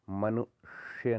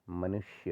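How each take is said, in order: First: मनुष्य split before a long sh; wrong heavy sh. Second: मनुष्य joined, with light sh; lighter sibilant. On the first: Teacher showing the error, मनुष्य split with heavy sh. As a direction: drag the "shya" in मनुष्य. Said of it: "नहीं होता". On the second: Teacher correcting it, मनुष्य soft and joined. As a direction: run मनुष्य together softly. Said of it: "होता है". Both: Shown as a demonstration.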